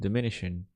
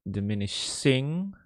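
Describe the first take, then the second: First: The word ends with a plain n sound. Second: The word ends with a full ng sound. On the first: The speaker calls it right. "diminishing with the n" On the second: The speaker calls it wrong. "it's not diminishing"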